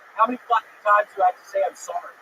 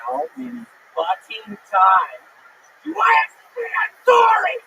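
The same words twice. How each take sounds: First: It is said at a normal speaking volume. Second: It is screamed very loudly.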